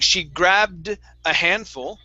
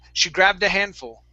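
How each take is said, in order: First: There is a pause after the D in grabbed. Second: Grabbed flows straight into the next word. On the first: The speaker calls it wrong. "instead of saying" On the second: The speaker calls it right. "just like that"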